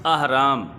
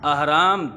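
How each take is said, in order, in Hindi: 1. पहला स्वर खुला 'a' ध्वनि है। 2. पहला स्वर खुला 'a' ध्वनि है।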